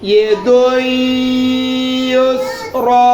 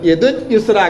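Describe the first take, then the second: First: The final vowel is drawn out long. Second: The final vowel is short and clipped. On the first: The speaker calls it right. "ഇവിടെ ഇങ്ങനെ മുളക്കം വരണം" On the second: The speaker calls it wrong. "അങ്ങനെയല്ല പറയാ"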